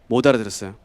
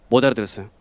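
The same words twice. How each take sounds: The two takes are said the same way.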